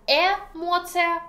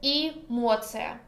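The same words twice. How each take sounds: First: Эмоция with a clear open "eh" at the start; as spelled. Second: Эмоция with the first vowel reduced to "ee"; as pronounced. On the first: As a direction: say эмоция letter for letter, opening on a full E as in "met". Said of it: "So we write". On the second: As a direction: say эмоция as "ee-MOT-sya". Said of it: "but pronounce". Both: Shown as a demonstration.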